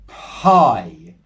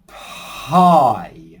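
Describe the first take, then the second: First: The word is said quickly and crisply. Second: The word is said slowly and drawn out.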